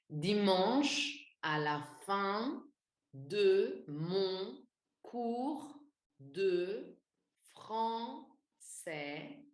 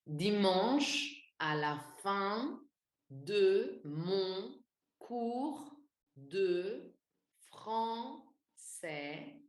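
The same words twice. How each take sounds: First: The individual sounds are stressed and exaggerated. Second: The same.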